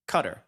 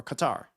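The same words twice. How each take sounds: First: "Qatar" said like "cutter"; "Qatar" as CUT-er, short second syllable; CUTTER pronunciation. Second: "Qatar" said kuh-TAR; "Qatar" as kuh-TAR, open ah at the end; kuh-TAR pronunciation. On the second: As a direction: stress the second syllable of "Qatar": kuh-TAR. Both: Shown as a demonstration. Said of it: "How do you pronounce that?".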